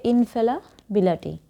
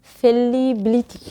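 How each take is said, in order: First: ইনফেলাবিলিটি with a light লা instead of লি; real pronunciation. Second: ফেলিবিলিটি said slowly letter by letter as spelt, ফে-লি-বি-লি-টি; spelling pronunciation. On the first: Teacher giving students the true sound, natural ইনফেলাবিলিটি. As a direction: say ইনফেলাবিলিটি as it is really pronounced, with লা. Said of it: "উচ্চারণ হবে ইনফেলাবিলিটি". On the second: Teacher showing students the spelling, slow spelling-style ফেলিবিলিটি. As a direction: spell it out the way it is written, ফেলিবিলিটি with a clear লি. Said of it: "বানানটা হচ্ছে ফেলিবিলিটি".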